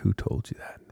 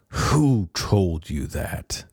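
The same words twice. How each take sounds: First: It sounds gentle and compassionate. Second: It sounds stern and disciplining.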